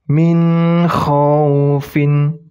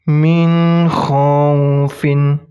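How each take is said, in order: No difference in how they are said.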